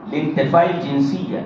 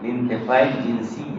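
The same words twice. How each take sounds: First: Slow, hushed dictation pace. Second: Said in the usual way. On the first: Shown as a demonstration. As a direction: spell it out slowly for note-taking. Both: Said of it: "یہاں لکھیے".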